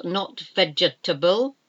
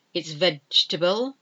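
First: "vegetable" in four syllables, ve-ge-ta-ble; wrong pronunciation. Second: "vegetable" in three syllables, VEJ-ta-ble; correct pronunciation. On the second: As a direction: swallow the second e in "vegetable". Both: Shown as a demonstration.

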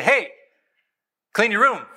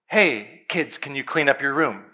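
First: Put-on higher, curt order to the kids; firm demand. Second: Put-on gentle, calm ask to the kids; polite request. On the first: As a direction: command it, no more asking. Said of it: "Now it's a demand". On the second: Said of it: "very politely, kindly, calmly". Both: Shown as a demonstration.

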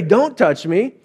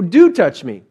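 First: "Don't" stressed, rising on the word; "Don't" clearly marked, rest light. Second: "Do" stressed with a falling tone; "Do" set against "don't". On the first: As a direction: lean into "Don't" as a warning. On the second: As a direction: hit "Do" firmly. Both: Shown as a demonstration.

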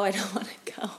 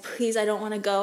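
First: Breathy whisper, half laughing through it; whispered crying plea. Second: A quick, pleading retelling of begging not to go; retold tearful plea. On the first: Retold or imitated. Repeating it to the nurse, whispered crying plea. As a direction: whisper the plea as if tears choke it. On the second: To the nurse as transport arrives, mild tearful plea. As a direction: plead to stay, a touch tearful. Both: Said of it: "I was crying".

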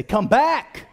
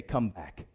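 First: Sudden raised yell; loud, emphatic call; like you mean it. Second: Soft, low, understated prompt; low and barely pushed; half-hearted. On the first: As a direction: yell it with conviction. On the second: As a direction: say it quietly without conviction. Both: Shown as a demonstration. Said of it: "say it like you mean it".

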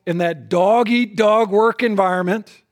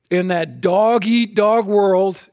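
First: Said in the usual way. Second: "dog-eat-dog" drawn out slow, each word leaned on; slow weighted stress. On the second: Shown as a demonstration. Preacher to husbands, slowly stressing "dog-eat-dog".

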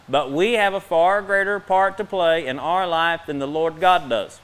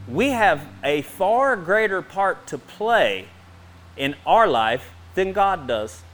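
First: Said in the usual way. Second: Each word laid down slowly; slow emphatic statement. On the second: Shown as a demonstration. Preacher stressing a big claim to the congregation, slow and weighty. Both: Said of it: "let me say that again".

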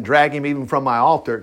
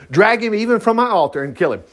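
First: Said in the usual way. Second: Higher-pitched, emphatic "drag him even from my altar"; insistent repeat. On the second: Shown as a demonstration. Preacher insisting on the verse, "drag him even from my altar" emphatic.

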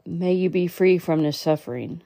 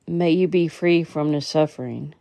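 No difference in how they are said.

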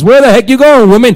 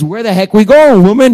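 First: Louder, exasperated phone broadcast; mock shout on the phone message. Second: Loud, frustrated demand; exasperated shout. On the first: Pastor imagining his phone message to congregation, mock loud outburst. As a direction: blurt it into the congregation recording. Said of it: "imagine you guys". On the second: Retold or imitated. Pastor venting at his wife, loud exasperated shout. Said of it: "all I wanna say is".

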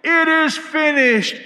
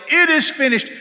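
First: High, loud, slow triumphant yell; shouted proclamation. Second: High and loud triumphant yell; shouted proclamation. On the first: Next runner passing the cry along, loud yell. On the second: Runner relaying the news, loud triumphant shout. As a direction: ring it out down the line. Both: Retold or imitated. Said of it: "the next one would yell".

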